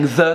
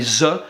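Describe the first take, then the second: First: It begins with a soft th sound. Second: It begins with a z sound. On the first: "instead of saying the" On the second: "they'll say z"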